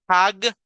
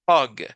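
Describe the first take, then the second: First: The vowel sounds like a Spanish A. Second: The vowel sounds between Spanish A and O. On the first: The speaker calls it wrong. "No es hag, H A G" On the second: The speaker calls it right. "Es como en medio, es hug"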